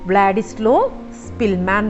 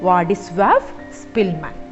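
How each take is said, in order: First: The first name is said as 'Vladislo'. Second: The first name is said as 'Vadiswav'. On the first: The speaker calls it wrong. "പക്ഷേ അത് റോങ് ആണ്" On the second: The speaker calls it right. "Correct pronunciation"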